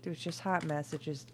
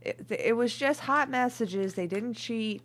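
First: Said in the usual way. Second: High, loud indignant protest. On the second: Acted. Reader loudly insisting it was only messages. Repeats protest louder then calmer.

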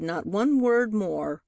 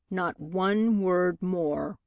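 First: "not one word more" with ONE lifted; firm emphasis. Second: "not one word more" drawn out very slowly; slow emphatic repeat. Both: A narrator's reading. Lawyer repeats phrase for emphasis.

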